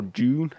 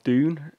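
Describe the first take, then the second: First: "Dune" said like "June"; alternative pronunciation. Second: Said in the usual way. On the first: Shown as a demonstration. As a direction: offer "Dune" as "June", the other way to say it. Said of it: "however you say it". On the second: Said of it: "or Dune, however you say it".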